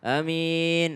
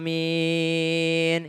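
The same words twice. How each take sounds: First: The first vowel is short, the second long. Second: The first vowel is long, the second long. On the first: "Kalau A-nya pendek. Min-nya panjang" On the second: "A-nya panjang. Min-nya juga panjang"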